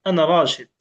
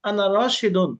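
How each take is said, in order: First: The last word stops short without the -un. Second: The last word ends with a full -un sound. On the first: The speaker calls it right. "শেষে গিয়ে সে ওয়াকফ করলো।" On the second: The speaker calls it wrong. "শেষে গিয়ে সে কি করে? দুই পেশ দিয়ে দেয়।"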